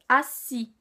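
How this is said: The word is said clearly with a firm tone. The speaker calls it right. "Bien le prononcer en fait"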